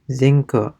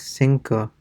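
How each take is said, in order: First: The first consonant sounds like a z. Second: The first consonant sounds like an s. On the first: The speaker calls it wrong. "So it's definitely not like a zinco" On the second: The speaker calls it right. "It's more like cinco"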